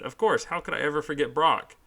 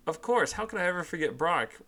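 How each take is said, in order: First: Said in the usual way. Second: Playful high mock-innocent question; teasing Ash, higher voice. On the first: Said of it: "I could have just said". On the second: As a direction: needle her with a sly grin. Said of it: "Ash replies teasingly".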